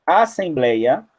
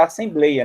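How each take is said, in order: First: ASSEMBLEIA with an open "é", slowly; e aberto. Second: ASSEMBLEIA with a closed "ê", like "assemblêia"; e fechado. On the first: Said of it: "tinha que colocar o acento". (assembleia com é bem aberto) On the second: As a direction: say "assembleia" wrongly, closing the e. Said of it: "senão ia ficar assembleia". (assembleia com ê fechado) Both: Shown as a demonstration.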